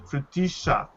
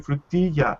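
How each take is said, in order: First: The double L is sounded like sh. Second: The double L is not sounded like sh. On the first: This is how it is said in Argentina. "double L is pronounced sh" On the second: This is how it is said in other places. "In other places, we say frutilla"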